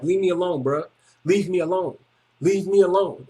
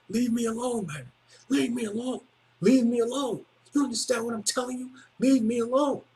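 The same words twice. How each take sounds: First: Said in the usual way. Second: Higher, softer, intense "Leave me alone"; serious warning. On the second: Retold or imitated. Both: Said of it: "And I was serious".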